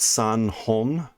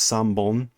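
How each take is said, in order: First: The counter begins with an h sound. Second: The counter begins with a b sound. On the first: The speaker calls it wrong. "it's not san hon" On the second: The speaker calls it right. "the hon changes to bon, so it's sambon"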